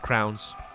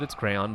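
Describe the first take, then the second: First: The word sounds like 'crowns', one syllable. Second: The word sounds like 'cray-on', two syllables. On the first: The speaker calls it wrong. "some people like to pronounce it as crowns" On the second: The speaker calls it right.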